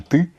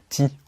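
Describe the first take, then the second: First: The vowel is a central, unrounded 'ɨ' sound. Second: The vowel is a front 'ee' sound. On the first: The speaker calls it right. "c'est une erreur de prononciation" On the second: The speaker calls it wrong. "ti au lieu de"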